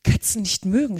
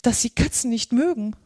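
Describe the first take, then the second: First: Mild mock screech of an angry mouse; understated furious mouse; indignant screech. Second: Higher, dismayed Alice; mildly alarmed, raised character voice; startled apology. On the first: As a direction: throw it back as an outraged question. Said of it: "schrie die Maus mit kreischender, wütender Stimme". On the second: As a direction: apologise to the mouse, flustered. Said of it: "rief Alice schnell, erschrocken". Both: A narrator's reading.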